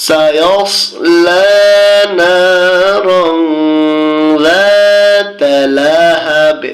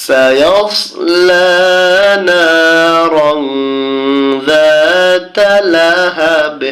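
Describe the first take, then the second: The two takes are said the same way.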